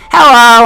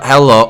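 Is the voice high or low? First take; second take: high; low. First: It is said in a high Wiggles voice. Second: It is said in a lower voice.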